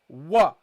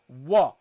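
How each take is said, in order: Both takes have the same delivery.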